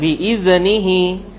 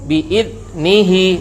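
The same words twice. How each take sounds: First: The consonant is released with a bouncing echo. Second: The consonant is stopped and held tight. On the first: "Atau dipantulkan" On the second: "tetapi dia tertahan. Syiddah dia baca"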